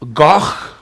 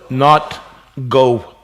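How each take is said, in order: First: The word ends in a rough throat sound. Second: The word ends in a plain open vowel. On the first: The speaker calls it right. "it's the G H, och" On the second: The speaker calls it wrong.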